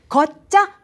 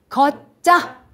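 First: It is said at a quicker pace. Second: It is said slowly.

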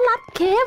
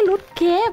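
First: The first vowel is an open 'ah' sound. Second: The first vowel is a rounded 'oo' sound. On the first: The speaker calls it right. "มันอ่านว่าลัดเคฟนะ" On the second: The speaker calls it wrong. "ไม่ใช่ลุดเคฟ"

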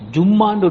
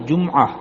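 First: It is said as a doubled m with no ayn. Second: An ayn sound follows the m before the vowel. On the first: The speaker calls it wrong. "ஜும்மான்னு ஒன்று இல்லை" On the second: The speaker calls it right. "அந்த மீமும் ஐனும் வர வேண்டும்"

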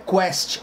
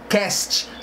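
First: The ending sounds like 'quest'. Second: The ending sounds like 'cast'. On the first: The speaker calls it wrong. "Não é Quest" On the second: The speaker calls it right. "é Cast"

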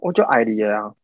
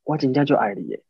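First: It is said in a plain, matter-of-fact tone. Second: It is said in a soft, romantic tone.

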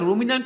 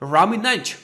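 First: The first vowel sounds like 'oo'. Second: The first vowel sounds like 'uh'. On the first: "তোমরা এটাকে রুমিন্যান্ট উচ্চারণ করতে পারো" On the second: "সব থেকে ভালো উচ্চারণটা হচ্ছে রামিন্যান্ট"

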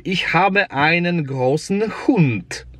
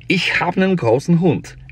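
First: Every word is pronounced fully and carefully. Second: Words are shortened, like hab and nen. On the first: This is the textbook form. "podręcznik powie" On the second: This is how people say it in everyday speech. "potocznie Niemiec powie"

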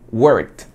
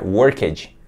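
First: The ending is pronounced as a t sound. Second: The ending is pronounced as an extra syllable. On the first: The speaker calls it right. "É como se esse ed tivesse um som de T" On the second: The speaker calls it wrong. "muita gente pronuncia worked"

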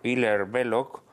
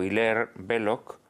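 First: The name is pronounced the French way. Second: The name is pronounced the English way. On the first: "a la francesa" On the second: "a la inglesa"

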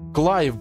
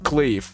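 First: The vowel in the name sounds like 'ai'. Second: The vowel in the name sounds like 'ei'. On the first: The speaker calls it right. "Клайв, блин, а не Клейв" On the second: The speaker calls it wrong. "а не Клейв"

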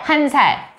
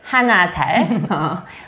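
First: The number is said with one syllable. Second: The number is said with two syllables. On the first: The speaker calls it right. "We say 한 살" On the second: The speaker calls it wrong. "we don't say 하나 살"

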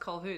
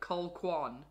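First: The name is said without a kw sound. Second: The name is said with a kw sound. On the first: The speaker calls it right. "that that was Colhoun" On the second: The speaker calls it wrong. "not like Colquan"

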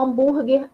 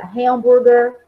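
First: The word is pronounced with Portuguese sounds. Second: The word is pronounced with English sounds. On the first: "O hambúrguer é o mesmo nome" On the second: "Ele só muda uma pronúncia"

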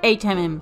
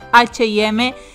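First: The letters are said with English letter names. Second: The letters are said with Spanish letter names. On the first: This is how the name is said in the United States. "así es como se dice en Estados Unidos" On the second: This is how the name is said in Spanish-speaking places. "en y los idiomas hispanos"

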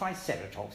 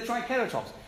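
First: The c is said as an s sound. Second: The c is said as a k sound. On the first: The speaker calls it wrong. "It's not triceratops" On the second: The speaker calls it right. "It is a K, not a C"

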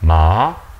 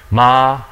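First: The pitch rises from mid to high. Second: The pitch stays high and level.

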